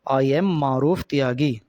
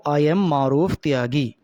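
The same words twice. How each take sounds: The two takes are said the same way.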